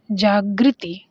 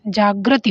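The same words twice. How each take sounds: First: जागृति with "gri" in the middle; wrong form. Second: जागृति with "gra" in the middle; corrected form. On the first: Teacher reading the printed option before correcting it, wrong form. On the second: Teacher telling students what it should be, corrected form. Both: Shown as a demonstration. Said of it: "जागृति होना चाहिए".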